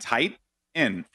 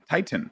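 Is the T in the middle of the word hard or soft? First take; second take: soft; hard. First: The middle T is soft, not fully pronounced. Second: The middle T is pronounced hard and clear. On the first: "I just say Titan, like Titan. You know, that's how I say it" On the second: "who says the T? I've never said the, like, hard pronounce the T"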